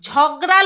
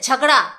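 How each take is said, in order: First: It is pronounced the Bengali way. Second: It is pronounced the Hindi way. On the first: "Bangla উচ্চারণে ঝগড়া লেখেনি" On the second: "মানে হিন্দি উচ্চারণে ঝগড়া"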